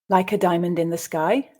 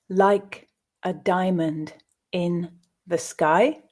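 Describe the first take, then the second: First: The line is read at a faster pace. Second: The line is read at a slow pace. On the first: "at a more natural pace"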